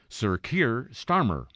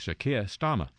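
First: It is said in an American accent. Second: It is said in a British accent.

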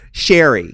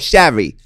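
First: The name is said with a San Diego accent. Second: The name is said with a New York accent. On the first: "How would you say it? ... I'm from San Diego" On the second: "Michelle is saying it in New York where you go"

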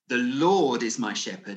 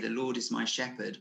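First: It is said forcefully, stressing the word Lord. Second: It is said in a gentle, soothing tone. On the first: The almighty creator himself is the shepherd. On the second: The Lord gives comfort and care.

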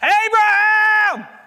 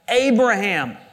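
First: It is called out loudly to get attention. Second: It is said calmly, as plain reading.

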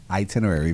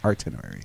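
First: The word begins with an 'it' sound. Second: The word begins with an 'art' sound. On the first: "Itinerary versus" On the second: "my pronunciation of itinerary versus artinerary"

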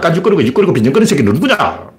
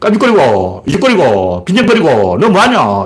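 First: The words run together in one continuous flow. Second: The words are chopped apart with breaks between.

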